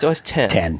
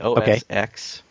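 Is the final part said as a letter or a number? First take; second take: number; letter. First: The final part is said as the number ten. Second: The final part is said as the letter ex. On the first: The speaker calls it right. "It's actually OS... It's OS 10" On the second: The speaker calls it wrong. "I have said OS X before, which is wrong"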